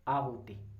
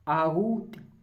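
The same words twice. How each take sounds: First: The middle 'hu' vowel is kept short. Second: The middle 'hu' vowel is drawn out long. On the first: The speaker calls it right. "आराम से बोलो, हु छोटा आएगा" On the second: The speaker calls it wrong. "क्यों लंबा खींच रहे हो यार"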